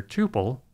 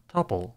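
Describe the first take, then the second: First: "tuple" said with a long oo, as TOO-pul; first syllable of "tuple" like "two"; TOO-pul pronunciation. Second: "tuple" said with a short uh, as TUP-ul; first syllable of "tuple" like the start of "tuppence"; TUH-pul pronunciation. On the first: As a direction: say "tuple" to rhyme with "pupil", without the y glide. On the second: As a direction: say "tuple" to rhyme with "supple". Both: Shown as a demonstration. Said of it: "can be pronounced either".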